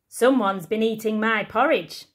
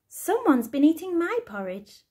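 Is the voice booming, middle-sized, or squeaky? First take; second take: booming; middle-sized. First: It is said in a big booming voice. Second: It is said in a middle-sized voice.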